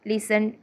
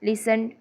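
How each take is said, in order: No difference in how they are said.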